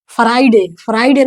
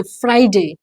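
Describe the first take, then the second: First: "फ्राइडे" as fa-RAI-de, vowel after f; wrong pronunciation. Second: "फ्राइडे" as FRY-day, f and r joined; model pronunciation. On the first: Teacher showing learners' slip, "फ्राइडे" as fa-rai-de. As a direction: say "फ्राइडे" with f and r split, short final e. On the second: Teacher correcting the class, "फ्राइडे" as FRY-day. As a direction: say "फ्राइडे" in two falling syllables. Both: Shown as a demonstration. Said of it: "फ्राइडे नहीं है".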